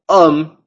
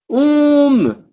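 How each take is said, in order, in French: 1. La voyelle est orale avec un M bien net. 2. La voyelle est nasale, comme le son on. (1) "on prononce homme" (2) "je devrais dire om. Mais non"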